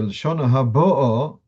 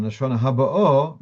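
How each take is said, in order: First: Haba'o with the weight on BA, before the final O; slow Haba'o, leaning on the middle syllable; stress on second-last syllable. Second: Haba'o with the final O stressed; slow Haba'o, landing hard on the last O; stress on last syllable. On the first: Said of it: "as I illustrated". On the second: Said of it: "And the second one". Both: Shown as a demonstration.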